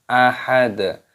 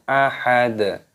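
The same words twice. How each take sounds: Both takes have the same delivery.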